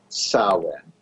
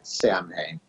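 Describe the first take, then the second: First: The word sounds different from its spelling. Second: The word is sounded out as it is spelled. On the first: The speaker calls it right. "actually, it is Samhain" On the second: The speaker calls it wrong. "It looks like Samhain"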